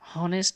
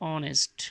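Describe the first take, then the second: First: The word starts with an audible h sound. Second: The word starts directly with a vowel sound. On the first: The speaker calls it wrong. "হনেস্ট বলা যাবে না" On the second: The speaker calls it right. "এইচ এর উচ্চারণ সেভাবে হচ্ছে না"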